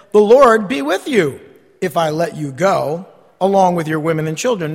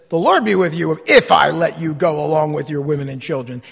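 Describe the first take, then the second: First: Said in the usual way. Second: Lower, mock-friendly sarcasm; a king sneering a blessing he doesn't mean; sarcastic. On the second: Shown as a demonstration. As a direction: say it sweetly but mean the opposite. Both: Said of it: "but in the proper tone".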